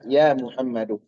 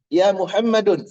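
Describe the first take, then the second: First: The name ends on a vowel without n. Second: The name ends with an added n sound. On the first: The speaker calls it right. "Yang tepat adalah" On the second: The speaker calls it wrong. "Nggak boleh dikasih. ... Salah"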